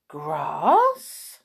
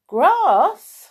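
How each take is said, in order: First: Drawn-out, rising, baffled "Grass?"; puzzled question. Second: High, loud "Grass?"; incredulous, high-pitched, insistent "Grass?"; emphatic amazement. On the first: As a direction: ask "Grass?" as if never heard of it. Moo puzzled by farmer's advice. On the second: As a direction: push "Grass?" out loudly, as if it were obvious. Farmer insists, amazed at Moo. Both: Acted.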